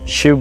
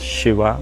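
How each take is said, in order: First: The word ends on a consonant, no final vowel. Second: The word ends with an added ah vowel. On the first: "Shiv becomes Shiva" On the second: "Ah sound comes because of the limitation of English language"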